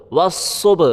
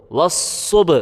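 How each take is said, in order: Both takes have the same delivery.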